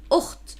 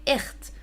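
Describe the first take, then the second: First: Ukht with a rounded u before the kh; ukht, rounded vowel, raspy kh; speaker's own pronunciation. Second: Ikht with a front i in place of u; ikht, unrounded vowel, as some accents say; other accent's pronunciation. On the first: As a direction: say ukht with an 'oo' vowel, as in mixed Levantine. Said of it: "what I say normally is ukht". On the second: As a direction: say ikht with a short 'ih' before the kh. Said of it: "Some accents would actually say ikht". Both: Shown as a demonstration.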